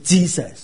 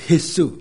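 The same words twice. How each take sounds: First: The word starts with an English j sound. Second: The word starts without an English j sound. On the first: The speaker calls it wrong. "但绝对不是Jesus" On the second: The speaker calls it right. "或者Jesus"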